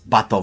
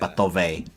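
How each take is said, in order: First: The name ends on a plain v sound. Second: The name ends with an extra vowel after v. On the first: The speaker calls it right. "it's Batov" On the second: The speaker calls it wrong. "It's not Batove"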